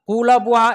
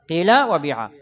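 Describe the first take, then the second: First: The first vowels are clear u sounds. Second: The first vowels are clear i sounds. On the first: This form exists but is less pure. The speaker calls it wrong. "এটাও আছে, তবে এটা কি বিশুদ্ধ না।" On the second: This is the purest form. The speaker calls it right. "সবচেয়ে বিশুদ্ধ কোনটা?"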